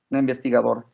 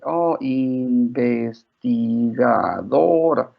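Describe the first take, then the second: First: Said in the usual way. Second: INVESTIGADORA very slow, each syllable drawn out and separated. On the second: Retold or imitated. Mother and small daughter practising a long word, "investigadora" slowly syllable by syllable. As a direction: sound out "investigadora" slowly, one syllable at a time. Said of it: "syllable by syllable".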